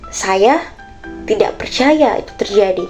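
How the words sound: It is said in a confused tone.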